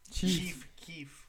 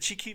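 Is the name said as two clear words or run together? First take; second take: two words; run together. First: The name is said as two clear words. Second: The name is run together like one word. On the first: The speaker calls it right. "Four letters" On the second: The speaker calls it wrong. "That's what you said"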